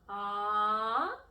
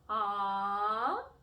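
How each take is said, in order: Both takes have the same delivery.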